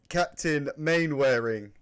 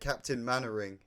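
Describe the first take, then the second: First: The name is read out just as spelled. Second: The name is said short, like Mannering. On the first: The speaker calls it wrong. "it's spelt Captain Mainwaring" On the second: The speaker calls it right. "but you say it Captain Mannering"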